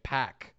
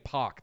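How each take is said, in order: First: "Pac" said like "pack"; American pronunciation. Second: "Pac" said like "pock"; hosts' usual pronunciation. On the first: Co-host reporting the announcers' version, "Pac" pronounced as "pack". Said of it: "they were pronouncing it Pac". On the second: Co-host quoting their own old version, "Pac" pronounced as "pock". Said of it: "We've been saying Pac this whole time". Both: Shown as a demonstration.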